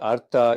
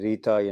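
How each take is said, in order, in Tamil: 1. இந்தச் சொல் syllabic r ஒலியில் தொடங்குகிறது. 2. இந்தச் சொல் ree ஒலியில் தொடங்குகிறது. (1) "ஆனால் உண்மையில் இது அர்த்தா என்று உச்சரிக்கப்படுகிறது" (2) "இந்தியாவில் பொதுவாக இதை ரீதா என்று"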